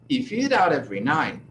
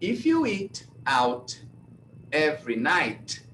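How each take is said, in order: First: The words run together with softened T sounds. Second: Each word is said separately and clearly. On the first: The speaker calls it right. "essa frase fica do, da forma assim" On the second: The speaker calls it wrong. "eu vou falar como o brasileiro vai falar"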